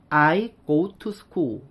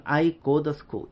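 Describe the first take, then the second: First: "I go to school" with a full, separate "too" and a clear T; every word of "I go to school" sounded out in full, Korean-style; 한국식 영어 발음. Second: T turned into D, said as "I go duh school"; 원어민식 약화 발음. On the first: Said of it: "한국 사람들은". (한국식으로 "I go to school"을 "아이 고우 투 스쿨"처럼 또박또박) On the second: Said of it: "원어민들은". ("to"를 "더"로 약화해서) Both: Shown as a demonstration.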